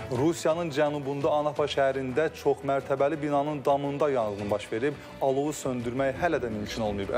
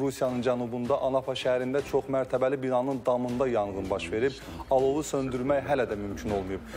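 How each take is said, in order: Both takes have the same delivery.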